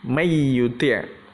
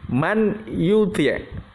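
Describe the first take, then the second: First: The n sound merges into the following y. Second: The n sound is clearly pronounced before y. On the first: "Tapi kita idghamkan. Bacanya" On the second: "itu kalau aslinya"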